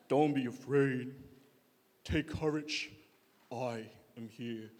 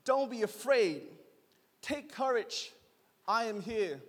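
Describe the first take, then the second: First: Deep, slow lion-king impression; Mufasa. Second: Said in the usual way. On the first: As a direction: drop it very low and draw it out solemnly. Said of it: "he sounds like Mufasa from Lion King".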